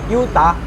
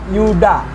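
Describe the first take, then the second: First: The name is said with a t sound. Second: The name is said with a d sound. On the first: "Mereka aksennya beda kayak Yuta" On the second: "Aku jawab Yuda"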